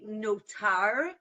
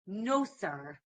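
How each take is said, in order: First: The middle consonant is a t sound. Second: The middle consonant is an s sound. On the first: "with a taf" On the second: "in the Yiddish pronunciation, they would say sa"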